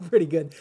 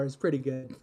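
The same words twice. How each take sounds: First: "Pretty" pushed out louder, echoing the host; echoing pretty good. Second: Said in the usual way. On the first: Retold or imitated. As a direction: lean on "Pretty" in a playful echo.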